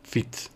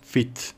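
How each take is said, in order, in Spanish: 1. La vocal es corta, como en fit. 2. La vocal es corta, como en fit.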